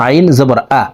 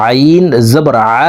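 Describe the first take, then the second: First: Quick আইন with a plain glottal আ; ain as hamza. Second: Longer আইন, short throaty আ; mid-throat ain. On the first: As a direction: say আ like hamza, no throat squeeze. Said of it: "এইভাবে হামজার উচ্চারণ করে থাকি". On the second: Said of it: "হলকের মধ্যখান থেকে আদায়". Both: Shown as a demonstration.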